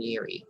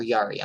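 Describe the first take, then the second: First: Yuri said with a different first vowel from "Yari"; tentative mispronounced name. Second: Yari with an open "ah" first syllable; corrected name. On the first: Host checking an attendee's name, tentative mispronunciation of "Yuri". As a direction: say "Yuri" softly, unsure of the name. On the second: Host correcting herself on an attendee's name, "Yari" with open "ah". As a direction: say "Yari" as YAH-ree. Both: Real, not acted. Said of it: "how do you pronounce your name".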